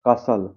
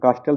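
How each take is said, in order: First: The t sound is silent. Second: The t sound is pronounced. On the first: The speaker calls it right. "टी silent होता है" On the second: The speaker calls it wrong. "कास्टल ध्यान नहीं होगा"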